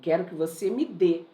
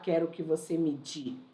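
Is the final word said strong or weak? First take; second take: strong; weak. First: The final word is strong and stressed. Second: The final word is weak and unstressed. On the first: The speaker calls it right. "Ele é forte" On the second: The speaker calls it wrong. "Dificilmente eu não vou falar"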